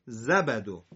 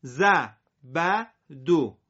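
First: زبدو run together at normal pace; quick joined reading. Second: زبدو split slowly into parts; very slow separated reading; slow syllable by syllable. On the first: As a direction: say زبدو smoothly in one go. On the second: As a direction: read زبدو apart, slowly. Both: Shown as a demonstration. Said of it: "سر هم".

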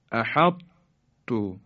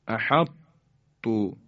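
First: احطتو very slow with the heavy ط kept before ت; احطتو slow, ط thick then ت; careful recitation. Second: احطتو repeated very slowly, ending on a long u; احطتو drawn out as æhætu; careful recitation. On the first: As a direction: draw out احطتو like Quran recitation. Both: Shown as a demonstration. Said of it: "اینطور تلفظ کنیم".

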